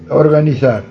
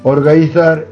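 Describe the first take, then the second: First: The n between the vowels is pronounced. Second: The n between the vowels is dropped. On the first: The speaker calls it right. "Debe dicirse organizar" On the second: The speaker calls it wrong. "está moi metido co conto de perderlo ben intervocálico. Organizar é incorrecto, porque é un imperenxebrismo"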